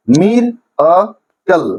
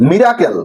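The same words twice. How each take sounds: First: মির, আ, কল with a clear pause after each; syllable by syllable. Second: Said in the usual way. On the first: Shown as a demonstration. Teacher dividing miracle for students, মির আ কল as separate beats. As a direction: break the word into মির আ কল. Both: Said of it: "তিনটা সিলেবেলে ভাঙা হয়েছে".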